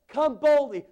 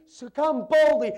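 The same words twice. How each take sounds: First: "Come boldly" shouted high and loud, falling on boldly; stress on boldly. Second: "So come boldly" drawn out slow, loud, falling on boldly; slow stress on boldly. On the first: Pastor calling the church to come boldly, stressed. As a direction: hit "boldly" hard. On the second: Pastor slowing down to drive home come boldly. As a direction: stretch every word of "come boldly". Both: Shown as a demonstration.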